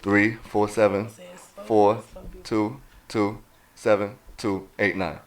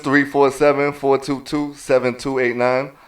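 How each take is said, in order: First: The number is said slowly. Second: The number is said at normal speed.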